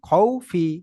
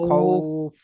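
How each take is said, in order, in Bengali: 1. শব্দটা ছোট i স্বর দিয়ে শেষ হয়। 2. শব্দটা f ব্যঞ্জন দিয়ে শেষ হয়। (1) "খ ওয়াও যাবার খৌ ফাজের ফি খৌফি" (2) "খৌফির জায়গায় খ ফা"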